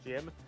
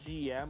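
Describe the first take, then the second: First: It is said as one short word, Jim. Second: It is spelled out as two separate letters. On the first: "I pronounce it Jim" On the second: "Bear pronounces it G M"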